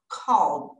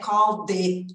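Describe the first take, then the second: First: The final D is light and subtle. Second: The final D is strong and heavy. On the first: The speaker calls it right. "Ele é leve, sutil" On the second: The speaker calls it wrong. "não é igual o nosso D de dado, não é called"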